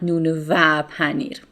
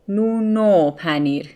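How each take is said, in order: First: The 'and' is a separate 'va' syllable. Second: The 'and' is a short linked 'o' sound. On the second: "va turns into o"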